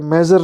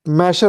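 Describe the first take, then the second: First: The middle consonant is a 'j' sound. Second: The middle consonant is an 'sh' sound. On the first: The speaker calls it wrong. "मेजर नहीं होता" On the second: The speaker calls it right. "मैशर होता है"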